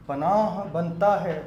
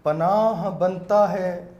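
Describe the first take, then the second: First: Slow, measured poetic recital; naat recitation. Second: Louder, slow, drawn-out recital; naat recitation. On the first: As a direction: recite the verse with reverence. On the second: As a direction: repeat the verse with more force. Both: Acted. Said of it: "نعت کے چند شعر پیش کرنا چاہوں گا".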